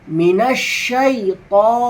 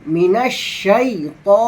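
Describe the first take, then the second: The two takes are said the same way.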